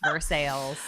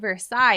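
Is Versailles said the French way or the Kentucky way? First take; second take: Kentucky; French. First: It is pronounced the local Kentucky way. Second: It is pronounced like the French palace name. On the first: The speaker calls it right. "nope. It's" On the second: The speaker calls it wrong. "I just passed through"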